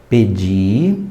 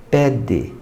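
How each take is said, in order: First: "Pedi" with the stress on the final i; written form pedi. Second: "pede" with the stress on the first syllable, final e like i; meant form pede. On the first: Teacher showing the student's spelling mistake, stressing "Pedi". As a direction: say "Pedi" as the past tense, stressed at the end. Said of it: "Olha onde ela errou". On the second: Teacher showing the word the student meant, saying "pede". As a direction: say "pede" as the command, stressed at the start. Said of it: "ela quis dizer". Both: Shown as a demonstration.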